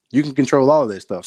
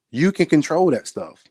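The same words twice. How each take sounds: First: "all" hit as the strongest word; stress on all. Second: Said in the usual way. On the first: Shown as a demonstration.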